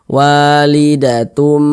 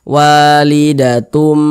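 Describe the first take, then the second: The two takes are said the same way.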